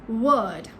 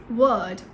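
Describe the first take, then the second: The two takes are said the same way.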